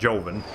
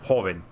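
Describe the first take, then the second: First: The word begins with an English J sound. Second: The word begins with an H sound. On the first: The speaker calls it wrong. "not Joven" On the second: The speaker calls it right. "it's pronounced the same, Hoven"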